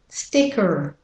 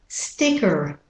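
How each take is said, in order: The two takes are said the same way.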